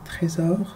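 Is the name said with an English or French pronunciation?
French. It is said with a French pronunciation.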